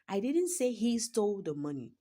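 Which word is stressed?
he. The word "he" carries the main stress. Someone else stole the money. "Someone else did. That is, someone else stole the money"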